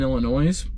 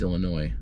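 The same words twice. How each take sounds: First: The final s sound is pronounced. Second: The final s sound is silent. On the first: The speaker calls it wrong. "I said Illinois because it's plural" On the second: The speaker calls it right. "I know Illinois is pronounced Illinois"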